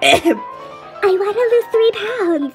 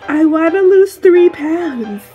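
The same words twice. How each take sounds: First: It is said in a girly voice. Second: It is said in a plain voice.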